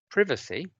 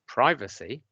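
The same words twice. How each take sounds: First: It is said in the older British way. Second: It is said in the newer American way. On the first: This is the established pronunciation, now in decline. "as I do" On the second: This is the newer pronunciation spreading through Americanization. "as my daughters do? Now, my daughters reflect the American pronunciation"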